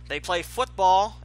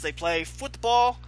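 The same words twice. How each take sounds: First: Football is said with an American-sounding inflection. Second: Football is said with a European-sounding inflection. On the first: The sport meant is American football. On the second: The sport meant is soccer.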